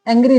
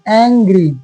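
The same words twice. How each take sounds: First: The first vowel is said short. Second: The first vowel is stretched long. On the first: The speaker calls it wrong. "एंग्री नहीं होता है" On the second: The speaker calls it right. "तो लंबा खींचो"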